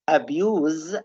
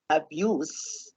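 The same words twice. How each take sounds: First: The word ends with a buzzing z sound. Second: The word ends with a hissing s sound. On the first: "so it's Z sound" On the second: "just write it in the seh, the seh column"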